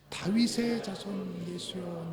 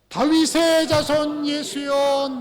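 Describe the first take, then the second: First: It is shouted weakly, without much force. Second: It is shouted loudly with desperate intensity.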